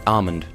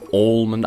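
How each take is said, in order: First: The L sound is silent. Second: The L sound is pronounced. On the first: The speaker calls it right. "you don't really pronounce the L. It's just almond" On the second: The speaker calls it wrong. "not almond"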